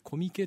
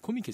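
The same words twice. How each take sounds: First: The pitch stays flat without a drop. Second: The pitch has an accent with a drop. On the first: "平板" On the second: "コミケじゃなくて"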